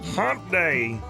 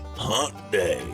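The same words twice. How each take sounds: First: It is said in a plain, neutral tone. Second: It is said in a suggestive, cheeky tone. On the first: It just names the day. The speaker calls it right. "that's a little better" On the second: It hints at something naughty. The speaker calls it wrong. "the way you say it is so inappropriate"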